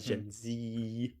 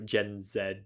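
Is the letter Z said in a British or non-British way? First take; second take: non-British; British. First: The letter Z is said a non-British way. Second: The letter Z is said the British way. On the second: "I say zebra because I'm British, but because I say a like uh, X Y Z"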